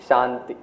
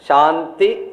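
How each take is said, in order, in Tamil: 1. வார்த்தை மிக மெதுவாகச் சொல்லப்படுகிறது. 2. வார்த்தை உரக்கச் சொல்லப்படுகிறது. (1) "கடைசியில் அதை விட மெதுவா" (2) "கொஞ்சம் பெருசா ஆரம்பிப்போம்"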